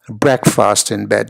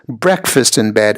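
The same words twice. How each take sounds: First: The stress is on the second syllable. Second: The stress is on the first syllable. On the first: The speaker calls it wrong. "and not" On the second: The speaker calls it right. "the stress on the first syllable"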